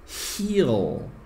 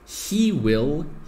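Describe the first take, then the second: First: The two words merge into one short syllable. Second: Both words are said fully and separately.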